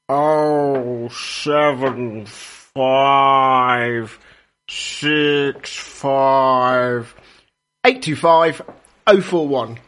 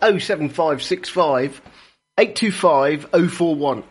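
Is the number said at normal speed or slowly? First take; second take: slowly; normal speed. First: The number is said slowly and deliberately. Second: The number is said at normal speed.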